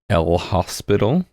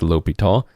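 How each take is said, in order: First: The name is said with an S sound. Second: The name is said without an S sound. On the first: The speaker calls it wrong. "the proper spelling of his name is El Hospital, though that is not his name" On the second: The speaker calls it right. "It's L'Hopital"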